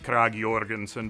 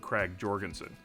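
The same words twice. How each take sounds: First: The name is said with a Danish pronunciation. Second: The name is said with an English J sound. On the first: "if you want to sound Danish, you say" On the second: "lots of Americans just say the J with a J"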